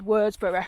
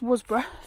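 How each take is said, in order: First: The name is said in its full form. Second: The name is said in a shortened form. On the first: This is how an older person would say it. "you'd say it in full" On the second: This is how locals say it. "That's how it's pronounced. It's pronounced um, locally"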